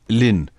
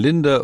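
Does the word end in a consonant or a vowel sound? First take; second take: consonant; vowel. First: The word ends in n, no d or vowel. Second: The word ends with a d and a vowel. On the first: This is the southern form of the word. "im Süden sagt man Linn. Das ND wird dann verschmolzen" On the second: This is the northern form of the word. "im Norden sagt man Linde"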